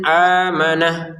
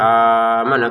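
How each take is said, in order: First: The first vowel is held only briefly. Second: The first vowel is held too long. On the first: The speaker calls it right. "a juga kita bacanya dua harokat saja" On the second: The speaker calls it wrong. "Jangan amanah, kan kelebihan"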